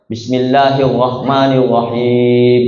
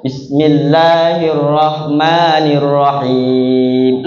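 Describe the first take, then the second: First: Bismillahirrahmanirrahim with the r dropped, slow; slow Bismillahirrahmanirrahim, r swallowed; lisping r. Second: Slow, clear Bismillahirrahmanirrahim with full rolled r; fluent recitation. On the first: Young student reciting to his teacher, lisping r. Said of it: "Kiai As'ad ini pelat". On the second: Healed student reciting fluently to his teacher, slow and clear. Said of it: "fasih, Pak". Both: Retold or imitated.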